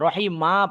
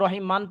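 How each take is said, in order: First: The word ends with a long a vowel. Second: The word ends with an n sound. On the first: The speaker calls it right. "রহিম মা পড়তে হবে" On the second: The speaker calls it wrong. "আমি তো রহিম মান পড়তে পারবো না"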